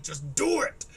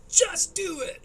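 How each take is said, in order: First: "Just do it" with "do" lifted lightly, easygoing rise at the end; relaxed, rising "Just do it"; casual just do it. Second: "Just do it" with "do" hit high and loud, falling hard; loud, high, commanding "Just do it"; barked order. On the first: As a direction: toss off "Just do it" like a shrug. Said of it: "It would have been funner if he was like". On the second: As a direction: command "Just do it" like a drill sergeant. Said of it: "'cause he went like". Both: Shown as a demonstration.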